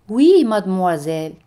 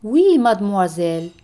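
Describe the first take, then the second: No difference in how they are said.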